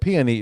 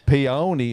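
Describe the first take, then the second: First: It is said with the standard, non-country pronunciation. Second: It is said with a rural country pronunciation. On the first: "is actually the more" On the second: "is where you'll hear the country version of it"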